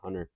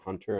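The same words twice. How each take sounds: First: The T sound in the middle is dropped. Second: The T sound in the middle is clearly pronounced. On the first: The speaker calls it wrong. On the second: The speaker calls it right.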